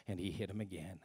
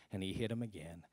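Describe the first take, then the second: No difference in how they are said.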